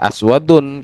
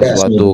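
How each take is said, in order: First: The word ends with an n sound. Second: The word ends on a vowel, no n. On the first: The speaker calls it wrong. "kita bacanya jangan eh" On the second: The speaker calls it right.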